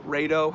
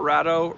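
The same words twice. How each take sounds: First: Rado said with a long a, as in "raid"; alternative pronunciation. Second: Rado said with a short a, as in "rad"; alternative pronunciation. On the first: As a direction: say Rado as RAY-doh. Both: Shown as a demonstration. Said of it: "however you wanna say it".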